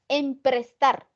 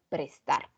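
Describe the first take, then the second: First: The word starts with an extra syllable "em". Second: The word starts directly with "pres". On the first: The speaker calls it wrong. "Las formas incorrectas de decir" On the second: The speaker calls it right. "¿Qué es lo correcto?"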